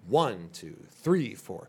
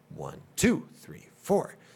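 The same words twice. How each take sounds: First: The stress falls on one and three. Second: The stress falls on two and four.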